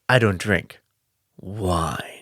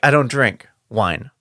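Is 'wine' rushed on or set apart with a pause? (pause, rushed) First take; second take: pause; rushed. First: 'Wine' is set apart after a pause. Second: 'Wine' is rushed on at the end. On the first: The speaker calls it right. "rather than like" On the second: The speaker calls it wrong. "he rushes to add wine. He's like"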